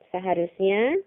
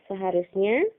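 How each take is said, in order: Both takes have the same delivery.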